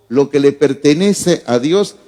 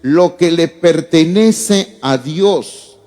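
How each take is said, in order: First: Said in the usual way. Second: "Lo que le pertenece a Dios" drawn out slowly, each word weighted; "Lo que le pertenece a Dios" stretched out word by word; slow emphatic reading. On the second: Shown as a demonstration. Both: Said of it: "donde dice".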